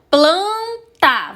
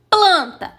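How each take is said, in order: First: "Planta" in two separated beats, first one stretched high; sílaba por sílaba. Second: Said in the usual way. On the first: Shown as a demonstration. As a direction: split "Planta" clearly into its two syllables. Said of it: "Você abriu a boca". ("Planta" separado em duas sílabas) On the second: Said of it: "Planta tem duas sílabas".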